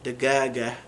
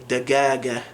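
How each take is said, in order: First: The word is said with hard G sounds. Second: The same.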